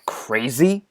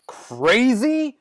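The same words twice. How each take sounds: First: Quieter, rising disbelief; offended echo. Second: High-pitched, incredulous repeat; outraged echo. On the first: Offended echo before a tirade. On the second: Second, more outraged echo. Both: Acted.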